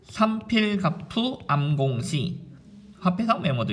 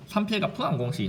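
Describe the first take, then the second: First: "삼필갑푸 암공시" stretched out slowly; slow demonstration. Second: "삼필갑푸 암공시" in a quick, higher-pitched rhythm; rhythmic recitation. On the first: Teacher introducing a mnemonic, slowly and deliberately. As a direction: draw out each syllable of "삼필갑푸 암공시". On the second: Teacher showing students the mnemonic's beat, rhythmically. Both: Shown as a demonstration. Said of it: "이 리듬을 좀 타면 됩니다".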